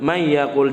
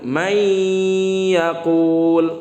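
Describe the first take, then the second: First: The nasal sound is cut short and rushed. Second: The nasal sound is held for a while. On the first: The speaker calls it wrong. "jangan langsung may yaqul" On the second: The speaker calls it right. "ditahan dulu"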